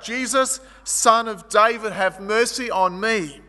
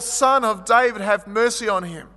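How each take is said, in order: First: Calling out. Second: Shouting louder. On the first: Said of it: "he stands up and he calls out". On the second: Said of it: "and he shouted more". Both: Acted.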